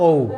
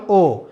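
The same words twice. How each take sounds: First: ও gliding from "o" into "oo"; English O. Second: ও as a single vowel with no glide; wrong O. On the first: Teacher shows the English letter, gliding "o-oo" ও. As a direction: round the lips as ও closes to "ow". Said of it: "ঠিক ইংলিশে এটা কি বলবো?". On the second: Teacher shows what not to say, unglided ও. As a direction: say ও purely, Bengali style. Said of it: "not ও". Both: Shown as a demonstration.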